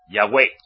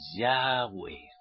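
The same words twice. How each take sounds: First: The last syllable is hit with strong stress. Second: The word is said softly, without a hard stress. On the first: The speaker calls it wrong. "Es como si le ponían el acento en E" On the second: The speaker calls it right. "Es más suave"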